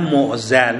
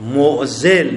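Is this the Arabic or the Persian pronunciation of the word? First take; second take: Persian; Arabic. First: The word is pronounced the everyday Persian way. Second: The word is pronounced the original Arabic way. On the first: The speaker calls it wrong. "به غلط تو فارسی میگیم معزل" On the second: The speaker calls it right. "معزل نه معزل"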